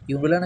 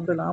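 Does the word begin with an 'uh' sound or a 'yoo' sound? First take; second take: yoo; uh. First: The word begins with a 'yoo' sound. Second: The word begins with an 'uh' sound. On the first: The speaker calls it wrong. "ইউমব্রেলা নাকি" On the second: The speaker calls it right.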